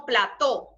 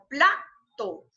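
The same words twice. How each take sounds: First: "plató" with the weight on TÓ; wrong-stress demo, "plató" ending on a strong TÓ; stress on last syllable. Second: "plato" slowly, PLA stressed and TO dropping; slow demo of "plato" with a strong first syllable. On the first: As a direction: hit the final TÓ of "plató". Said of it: "No decimos plató". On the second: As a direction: lean on PLA in "plato", split from TO. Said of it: "decimos plato". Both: Shown as a demonstration.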